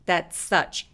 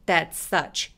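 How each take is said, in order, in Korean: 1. s 소리는 한 번만 발음해요. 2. s 소리는 한 번만 발음해요.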